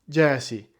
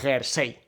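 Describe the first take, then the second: First: The word is pronounced with English sounds. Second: The word is pronounced with Spanish sounds. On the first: This is the original foreign pronunciation. "En inglés" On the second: This is how it is said in Spain. "se pronuncia a la española"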